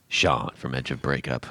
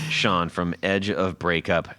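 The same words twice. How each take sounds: First: It is said in a dark, moody way. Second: It is said in a plain, casual way. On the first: The speaker calls it right. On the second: The speaker calls it wrong.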